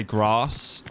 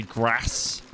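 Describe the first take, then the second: First: "grass" with a long southern ah; "grass" said as grahss; long-A pronunciation. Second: "grass" with a short Midlands a; slow "grass", short flat vowel; short-A pronunciation. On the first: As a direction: say "grass" to rhyme with farce. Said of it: "with an accent would be, like, grass". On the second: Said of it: "I'll say grass instead". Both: Shown as a demonstration.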